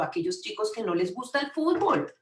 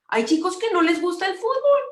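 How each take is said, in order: First: Said in the usual way. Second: Raised voice, much higher and louder; high, insistent exclamation; emphatic repeat. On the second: Real, not acted. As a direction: drive the point home loudly.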